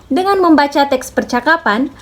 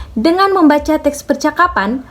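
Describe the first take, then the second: Both takes have the same delivery.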